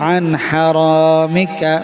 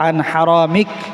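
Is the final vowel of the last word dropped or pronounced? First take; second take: pronounced; dropped. First: The last word ends with its final vowel. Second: The last word ends without its final vowel. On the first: The reciter continues into the next words. "আর যদি মিলাই পড়েন" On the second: The reciter stops after this word. "যদি থামেন তাহলে আন হারামিক"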